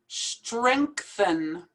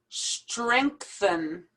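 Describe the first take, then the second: The two takes are said the same way.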